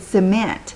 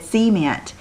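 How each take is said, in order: First: The stress is on the second syllable. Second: The stress is on the first syllable. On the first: "that's just not how I would ever say that word" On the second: "you emphasize the first syllables of words"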